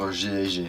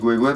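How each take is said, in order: First: The name is spelled out letter by letter. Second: The name is read as one word. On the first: It is the harder way to say it. "que de dire G et G" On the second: It is the easier way to say it. "je dis Goué-Goué parce que c'est plus facile"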